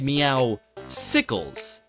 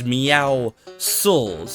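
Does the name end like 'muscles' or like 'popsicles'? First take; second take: popsicles; muscles. First: The name ends like the word popsicles. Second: The name ends like the word muscles. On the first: The speaker calls it wrong. "there's apparently people that call this guy Meowsicles. The mispronunciation" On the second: The speaker calls it right. "His name is Meowscles, a pun on the word muscles and meow"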